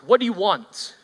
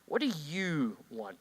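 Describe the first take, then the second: First: The stress is on the word want. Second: The stress is on the word you.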